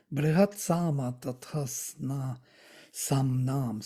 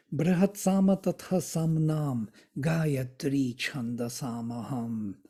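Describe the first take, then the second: First: "Tathasna" slurred where "Tatha Samnam" belongs; misspoken verse. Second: "Tatha Samnam" said as two clear separate words; corrected verse. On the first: Teacher reciting the Gita verse to the class, slipping on "Tathasna". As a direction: stumble on "Tathasna" before catching it. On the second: Teacher re-reciting the verse to the class, now saying "Tatha Samnam" cleanly. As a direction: recite it again with "Tatha" and "Samnam" kept apart. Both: Real, not acted.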